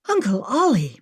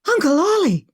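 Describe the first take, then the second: First: A milder, urgent exclamation; concerned exclamation; exclaimed. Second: High, loud cry of recognition; loud startled shout. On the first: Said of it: "Maggie exclaimed". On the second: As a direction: shout across the camp to her uncle. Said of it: "she shouted". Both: Acted.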